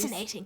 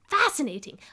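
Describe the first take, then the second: First: It is said in the speaker's normal accent. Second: It is said in an attempted German accent. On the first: "I'm just gonna ditch that accent and just go like" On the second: "I gave him an accent. Let's see how bad I can do this"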